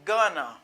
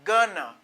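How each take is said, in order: First: Going to is reduced to one word, gonna. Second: Going to is reduced to one word, gonna.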